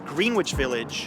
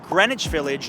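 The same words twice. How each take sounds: First: The w in Greenwich is sounded. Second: The w in Greenwich is silent. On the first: The speaker calls it wrong. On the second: The speaker calls it right.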